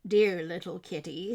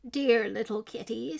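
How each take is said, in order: First: Put-on old man tender. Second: Put-on old woman tender. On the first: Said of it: "said the very old man". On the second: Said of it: "said the very old woman". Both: A narrator's reading.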